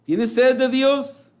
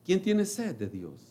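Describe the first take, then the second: First: Raised call. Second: Said in the usual way. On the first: Acted. Preacher quoting the Lord.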